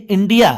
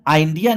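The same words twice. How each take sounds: First: इंडिया opening on "in", pitched high; short i in इंडिया. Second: First vowel of आ इंडिया widened to "eye"; mispronounced India. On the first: Teacher showing students the word, short i in इंडिया. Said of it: "यहाँ पे ई कहा जाएगा". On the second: Teacher showing what not to say, "eye" opening in आ इंडिया. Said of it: "आ इंडिया नहीं". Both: Shown as a demonstration.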